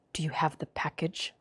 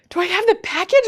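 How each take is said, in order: First: Hushed, low Russian spy voice; secretive Russian caller, very soft; thick Russian accent. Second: High, loud mock disbelief; retold incredulous question; astonished echo. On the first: Retold or imitated. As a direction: murmur it in a mock Russian accent. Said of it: "this thick, like, Russian accent". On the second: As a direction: repeat it back, startled and high. Retold startled echo of caller.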